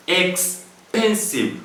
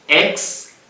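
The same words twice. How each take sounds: First: "expensive" stretched slowly, syllable by syllable; slowed to count syllables. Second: Said in the usual way. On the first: Shown as a demonstration. Teacher showing students the syllables, slow and drawn out. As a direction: draw out "expensive" so each syllable is clear. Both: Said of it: "how many syllables do we have there?".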